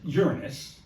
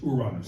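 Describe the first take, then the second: First: It sounds like the word 'urine' plus 'us'. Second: It is said with Spanish vowels and sounds. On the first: It makes the planet's name sound crude. The speaker calls it wrong. "just a piss poor name for a planet" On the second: It is closer to the original Greek. The speaker calls it right. "the way it's pronounced in Spanish"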